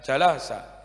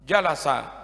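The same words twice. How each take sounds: First: The stress is not on the first syllable. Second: The stress is on the first syllable. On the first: The speaker calls it wrong. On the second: The speaker calls it right. "tekan huruf yang pertama"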